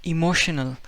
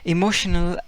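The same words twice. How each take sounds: Both takes have the same delivery.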